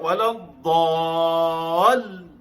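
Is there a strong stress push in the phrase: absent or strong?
strong. It is said with a strong stress push. The speaker calls it wrong. "Kita Melayu baca wala dhal begitu"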